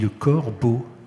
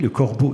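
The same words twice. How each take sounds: First: The phrase is said slowly and drawn out. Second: The phrase is said at normal speed.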